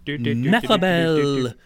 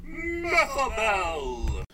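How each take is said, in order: First: Slow, drawn-out name callout; fighting game announcer. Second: Slow, drawn-out and higher; fighting game announcer. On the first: Acted. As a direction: boom it like an arcade announcer. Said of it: "came straight out of a cruddy nineties fighting game announcer's mouth". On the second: Shown as a demonstration. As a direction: stretch the name like an arcade announcer.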